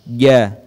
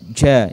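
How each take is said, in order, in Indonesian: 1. Bunyi berhenti tanpa napas keluar. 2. Setelah bunyi, napas mengalir keluar. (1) "saat diucapkan tidak mengalir suara" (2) "jangan dibaca ja, ja, itu keliru"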